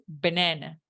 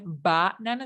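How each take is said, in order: First: The unstressed vowels are relaxed schwa sounds. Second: Every vowel is a full, open 'ah' sound. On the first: The speaker calls it right. "es banana" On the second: The speaker calls it wrong. "No es banana"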